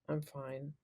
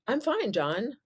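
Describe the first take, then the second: First: It sounds flat and unhappy. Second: It sounds cheerful and upbeat.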